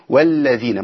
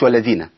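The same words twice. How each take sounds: First: The lam sound is doubled and held. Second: The lam sound is short and single. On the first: The speaker calls it right. "اقول والذين" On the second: The speaker calls it wrong. "مش والذين، يبقى انا اسقطت ايه، حرف من القران"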